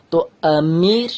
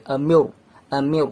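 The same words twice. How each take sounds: First: "আমির" بطيء بفم رقيق; قل "আমির" مرقق الراء ببطء; thin r in amir. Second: "আমির" بشفاه مستديرة وراء مفخمة; قل "আমির" بفم مستدير مفخم; heavy rounded amir. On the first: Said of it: "মুখটা পাতলা করে পড়বো". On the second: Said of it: "মুখটা গোল হয়ে যাবে". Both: Shown as a demonstration.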